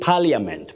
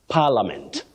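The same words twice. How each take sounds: First: An i sound is heard in the middle. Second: No i sound is heard in the middle. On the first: The speaker calls it wrong. "people find themselves saying parliament, but that I is silent" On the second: The speaker calls it right. "that I is silent. That is the way to go"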